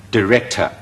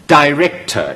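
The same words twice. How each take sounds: First: Director開頭讀成好弱嘅də; 示範director，頭一音節輕輕帶過; 弱音讀法. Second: Director開頭讀成dai; 慢讀director，頭一音節用ai音; dai讀法. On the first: (將director開頭弱化成də) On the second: (示範dai-rector嘅讀法) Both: Shown as a demonstration. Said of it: "總之三個音都有".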